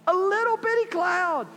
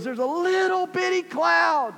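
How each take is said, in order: First: Very high, hushed wonder; excited servant, even higher. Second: Very high, slow and wondering; excited servant. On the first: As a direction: say it again, almost squeaking with awe. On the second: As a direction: marvel at a tiny cloud. Servant describes tiny cloud. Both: Acted.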